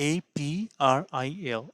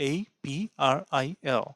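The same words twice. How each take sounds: No difference in how they are said.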